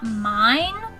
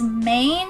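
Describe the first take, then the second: First: The word is said with the vowel of 'mine'. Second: The word is said with the vowel of 'main'. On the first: This matches how the title is spelled. "and not mine" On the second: This is how online listings give the title. "lists it as main"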